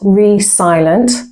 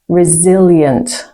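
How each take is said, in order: First: The middle consonant is a hissing S sound. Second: The middle consonant is a buzzing Z sound. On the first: The speaker calls it wrong. "Not re-silent" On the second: The speaker calls it right. "So it sounds like a Z"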